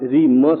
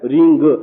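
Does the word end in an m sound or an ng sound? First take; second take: m sound; ng sound. First: The word ends with a clear m sound. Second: The word ends with a nasal ng sound. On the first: "मैंने आप में रीम म शब्द उच्चारण किया है" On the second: "रींग ऐसा भी बोला जाता है"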